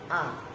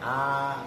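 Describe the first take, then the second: First: The vowel is cut short. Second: The vowel is held long. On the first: The speaker calls it wrong. "bukan a. Kalau a kan pendek" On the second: The speaker calls it right. "alif kan bacanya jadinya panjang"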